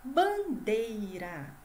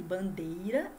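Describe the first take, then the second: First: BANDEIRA stretched out slowly; drawn-out rhyme word. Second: Said in the usual way. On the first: Shown as a demonstration. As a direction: say "bandeira" slowly, lingering on each part. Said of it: "uma palavra que rima com". ("bandeira" bem devagar e esticado) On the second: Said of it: "Percebam que bandeira e feira terminam em".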